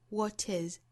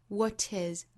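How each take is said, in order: Both takes have the same delivery.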